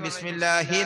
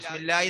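First: The h sound before the last vowel is pronounced. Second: The h sound is dropped, sounding like ya. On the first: The speaker calls it right. "ബിസ്മില്ലാഹി തന്നെ ആവണം" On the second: The speaker calls it wrong. "ഹാ ഇല്ലാതെ ബിസ്മില്ലാഹി എന്ന് പറയും, യായി പോയി, തെറ്റാണ്"

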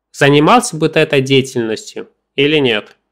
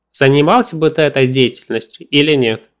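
Both takes have the same delivery.

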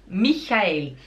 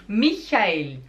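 No difference in how they are said.

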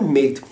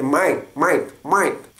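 First: The word is said without an Australian accent. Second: The word is said with an Australian accent. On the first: "não é mate" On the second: "a forma como eles falam aqui é muito estranho, é mate"

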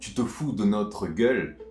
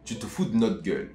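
First: Every syllable is pronounced fully and clearly. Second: Syllables are dropped and run together quickly. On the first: "il dit pas tu te fous de notre gueule" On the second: "Cyprien le dit assez vite"

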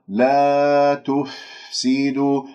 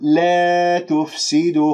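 First: The long a vowel is open and unbent. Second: The long a vowel is bent toward e. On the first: The speaker calls it right. "أبعد بين الفكين، اللسان مرتاح بحيث أنه تطلع عندي الألف غير ممالة" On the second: The speaker calls it wrong. "خطأ"

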